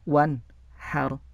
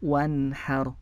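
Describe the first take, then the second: First: The word is broken up with a break inside. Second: The word flows smoothly without any break inside. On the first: The speaker calls it wrong. "dibaca terputus-putus ... itu tidak boleh" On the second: The speaker calls it right. "dibacanya mengalir"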